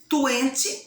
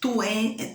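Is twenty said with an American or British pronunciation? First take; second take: British; American. First: It is said with a British pronunciation. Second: It is said with an American pronunciation. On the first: "twenty é mais britânica" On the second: "twenty é mais americana"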